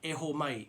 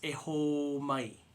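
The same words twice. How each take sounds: First: The vowels are held for a normal length. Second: A vowel is drawn out noticeably longer. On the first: The speaker calls it wrong. "instead of saying" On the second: The speaker calls it right. "Hold it out, draw it out longer"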